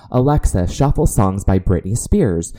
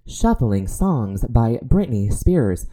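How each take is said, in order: First: Said in the usual way. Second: Slow, even smart speaker voice; Alexa voice. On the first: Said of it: "when you tell Alexa and you say". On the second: Retold or imitated. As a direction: answer like a voice assistant. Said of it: "And then she goes".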